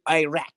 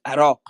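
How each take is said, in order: First: It is said with an American accent. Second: It is said with a Middle Eastern accent. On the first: "You say Iraq. Like that's the most offensive way of saying it" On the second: "It's Iraq"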